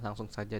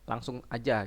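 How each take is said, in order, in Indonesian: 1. Kata kedua adalah bentuk lengkap 'saja'. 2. Kata kedua adalah bentuk pendek 'aja'. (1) "langsung saja dalam bahasa baku" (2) "mengatakan langsung aja gitu"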